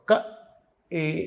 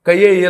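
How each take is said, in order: First: The two sounds are said without a glide. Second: A 'y' glide joins the two sounds. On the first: The speaker calls it right. "క ఏ ఇక్కడి నుంచి పలకాలి" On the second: The speaker calls it wrong. "కయ్యే ఏ లక్ష్మీ అని చదివేశాడు ఒకడు... అలా చదవకూడదు"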